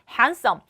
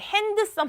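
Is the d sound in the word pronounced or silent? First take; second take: silent; pronounced. First: The d sound is silent in the word. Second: The d sound is pronounced in the word. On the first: The speaker calls it right. "D는 발음이 나지 않는 묵음 처리되죠" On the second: The speaker calls it wrong. "handsome 아니죠"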